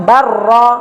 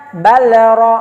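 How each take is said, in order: First: Barra with the lam merged into a doubled rolled r; the right reading barra with a doubled r; correct barra. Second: Balra with the lam sounded separately before ra; the mistaken balra, lam not merged; wrong pronunciation balra. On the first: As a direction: say barra, l swallowed into a long rr. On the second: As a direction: say balra keeping the l apart from the r. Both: Shown as a demonstration. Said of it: "Bukan balra, tapi barra".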